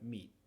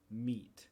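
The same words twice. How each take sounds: First: The final T is cut off without release. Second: The final T is clearly released and audible. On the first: "Como lo decimos normalmente sería ... no producimos el sonido" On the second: "yo estoy enunciando siempre el sonido T, aun cuando viene al final de la palabra"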